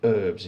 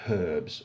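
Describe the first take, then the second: First: It is said with an American pronunciation. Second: It is said with a British pronunciation. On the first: The speaker calls it wrong. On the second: The speaker calls it right.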